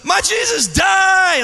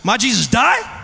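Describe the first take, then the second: First: It is screamed at full volume. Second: It is said a little louder.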